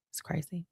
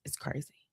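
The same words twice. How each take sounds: First: Said in the usual way. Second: Whispered aside. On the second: Real, not acted. Telling viewers about the long birthday week, whispering. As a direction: softly whisper It's crazy.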